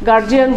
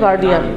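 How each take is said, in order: First: The middle consonant is a 'j' sound. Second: The middle consonant is a 'd' sound. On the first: The speaker calls it wrong. "আমরা অভিভাবকের ইংরেজি গার্জিয়ান বলি" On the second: The speaker calls it right. "Actually আসল উচ্চারণ হলো গার্ডিয়ান"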